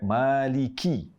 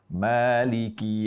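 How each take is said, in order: First: The k is said with heavy, excessive breath. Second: The k is said with light breath. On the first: The speaker calls it wrong. "Jangan sampai" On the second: The speaker calls it right. "Jadi yang tepat"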